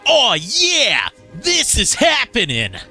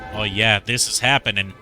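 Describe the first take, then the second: First: It is said with big, hyped-up energy. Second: It is said with ordinary, low energy. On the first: The speaker calls it right. "I gotta say it with real nineties energy" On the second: The speaker calls it wrong. "I said that wrong"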